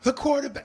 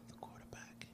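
First: It is said with vibrant, high energy. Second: It is said tired, with low energy.

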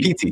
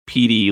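First: The middle consonant is a crisp, clear T. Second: The middle consonant is a soft D-like sound. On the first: The speaker calls it right. "You have to really do the T sound" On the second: The speaker calls it wrong. "Otherwise, it sounds like you're saying like PD"

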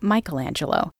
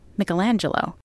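First: The name is said with an American pronunciation. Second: The name is said with an Italian pronunciation. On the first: "instead of the Americanized version of Michelangelo" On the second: "pronounce the artist's name in the Italianate way"

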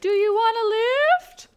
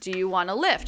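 First: It is said in a high voice. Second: It is said in a normal voice.

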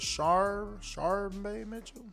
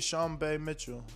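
First: The first name is said with an R sound. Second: The first name is said without an R sound. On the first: "do you pronounce the R?" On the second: "I always say"

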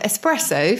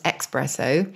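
First: The word begins with an 'es' sound. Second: The word begins with an 'ex' sound. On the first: The speaker calls it right. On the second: The speaker calls it wrong.

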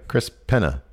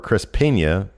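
First: The n is a plain n sound. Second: The n is said like 'ny'. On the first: The name is read as written, without a tilde. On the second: The name is meant to carry a tilde over the n.

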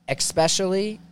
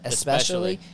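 First: The word begins with an 'ex' sound. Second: The word begins with an 'es' sound. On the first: The speaker calls it wrong. "I say especially" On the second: The speaker calls it right. "instead of especially"

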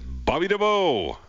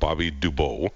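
First: The name is said at a normal pace. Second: The name is said quickly, running together.

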